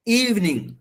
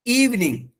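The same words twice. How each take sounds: The two takes are said the same way.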